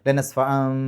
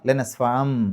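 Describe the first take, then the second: No difference in how they are said.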